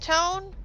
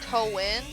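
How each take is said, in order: First: The name is said without a separate 'a' sound. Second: The name is said with the 'a' sound enunciated.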